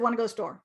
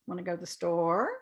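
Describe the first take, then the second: First: The pitch stays flat at the end. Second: The pitch glides at the end.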